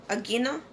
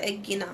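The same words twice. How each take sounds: First: "Agino" as a question, rising at the end; soft, questioning "Agino"; tentative pronunciation. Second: "Agino" said softly, falling at the end; quiet, sounded-out "Agino" with a falling close; trial pronunciation. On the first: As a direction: try out "Agino" unsurely, voice lifting on the last syllable. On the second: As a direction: settle "Agino" downward like a statement. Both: Shown as a demonstration. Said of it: "How you pronounce it?".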